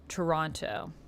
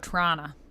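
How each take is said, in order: First: The city name is said carefully, in full. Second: The city name is said the local way.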